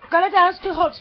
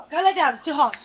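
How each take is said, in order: First: Louder, higher order to a pet; insistent command. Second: Said in the usual way. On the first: Real, not acted. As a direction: repeat the order firmly and loudly. Repeats the command more insistently.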